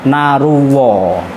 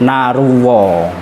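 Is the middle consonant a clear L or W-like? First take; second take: W-like; W-like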